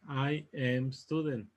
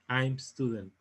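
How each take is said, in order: First: I am is said as two full words. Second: I am is shortened into one syllable. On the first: The speaker calls it wrong. "En vez de que digamos I am student" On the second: The speaker calls it right. "nosotros vamos a decir I'm"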